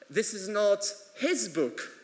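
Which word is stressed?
his. The word his carries the main stress. It belongs to someone else. "it's her book"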